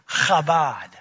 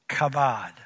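First: It begins with a harsh, raspy throat sound. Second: It begins with a plain hard k sound.

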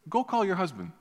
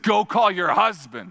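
First: It is said in a gentle, inviting tone. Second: It is said in a harsh, accusing tone.

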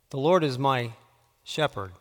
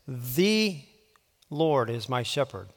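First: The emphasis falls on the word 'shepherd'. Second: The emphasis falls on the word 'the'. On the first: "putting the emphasis on a different word each time" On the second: "putting the emphasis on a different word each time"

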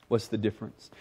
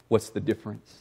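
No difference in how they are said.

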